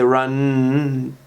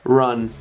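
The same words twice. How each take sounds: First: The final n sound is drawn out. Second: The final n sound is cut short. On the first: The speaker calls it wrong. "You don't say run. It doesn't run on" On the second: The speaker calls it right. "it's just run"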